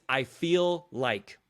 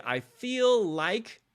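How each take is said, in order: First: Said in the usual way. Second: Head voice. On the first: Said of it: "When you hear yourself say". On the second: Shown as a demonstration. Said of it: "your head voice".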